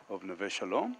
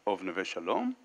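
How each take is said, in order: Both takes have the same delivery.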